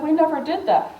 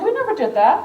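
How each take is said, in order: First: Said in the usual way. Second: Much higher, rising "we never did that"; mock the publishers' disbelief; imitating a shocked publisher, pitched up; incredulous. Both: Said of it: "With the U S S R".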